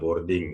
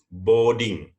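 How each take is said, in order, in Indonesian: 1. R-nya dibunyikan. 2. R-nya dihilangkan. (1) "memang R-nya itu udah kental kali, ... ya udah boarding boleh" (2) "R-nya dihilangin aja"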